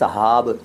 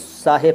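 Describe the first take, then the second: First: The second vowel is an a sound. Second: The second vowel is an i sound. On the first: The speaker calls it wrong. "साहब वो ठीक नहीं है" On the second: The speaker calls it right. "सही तरीका तो साहिब है"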